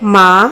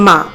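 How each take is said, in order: First: The word is said with tender affection. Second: The word is said in a plain, neutral way. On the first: "মমতার সঙ্গে বলেন" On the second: "সাধারণভাবে বলেন"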